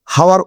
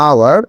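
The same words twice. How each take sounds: First: "হাওয়ার" opening on a breathed H; H sounded. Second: "আওয়ার" beginning on an open "আ" vowel; silent H. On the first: Teacher warning against the error, "হাওয়ার" with H sounded. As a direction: say "হাওয়ার" wrongly, with the H pronounced. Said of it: "হাওয়ার উচ্চারণ করলে কিন্তু বিষয়টি হচ্ছে না". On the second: Teacher answering how hour is said, "আওয়ার" with silent H. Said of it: "এটার উচ্চারণ কি হবে?". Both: Shown as a demonstration.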